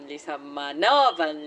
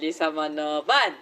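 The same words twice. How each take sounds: First: The stress is on the fourth syllable. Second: The stress is on the fifth syllable.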